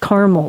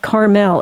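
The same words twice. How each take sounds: First: The name sounds like the candy caramel. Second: The name does not sound like the candy. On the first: The speaker calls it right. "it's Carmel, like the candy" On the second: The speaker calls it wrong. "it's not Carmel"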